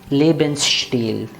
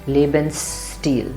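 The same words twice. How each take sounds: First: The second part is said with 'sht'. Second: The second part is said with plain 'st'. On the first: The word follows the normal German rule. "very many people in Germany also say Stil" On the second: The word keeps its original Latin sound. "there are some people who say steel"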